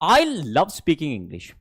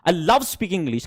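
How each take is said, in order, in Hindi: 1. पहला शब्द स्ट्रेस लेता है। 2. दूसरा शब्द स्ट्रेस लेता है। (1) "जब आप आई पे स्ट्रेस डालते हो" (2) "फिर दूसरा स्ट्रेस लव पे डाला है"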